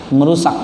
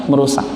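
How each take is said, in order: The two takes are said the same way.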